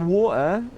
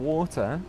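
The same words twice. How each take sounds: First: The T sound in the middle is dropped. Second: The T sound in the middle is pronounced.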